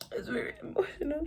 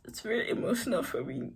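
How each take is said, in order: First: High, soft whisper, all choked up; mock emotional. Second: Said in the usual way. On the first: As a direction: whisper it as if overcome, hammed up.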